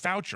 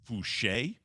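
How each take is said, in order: First: The name is said with an English ending. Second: The name is said with a French ending. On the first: The speaker calls it wrong. "I thought it was Foucher. I just read F O U C H E R" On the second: The speaker calls it right. "the last name is pronounced Fouché"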